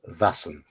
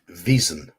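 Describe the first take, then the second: First: It is said with the Swedish pronunciation. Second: It is said with an English pronunciation. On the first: "that's how the Swedes pronounce it" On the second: "In English, it would be"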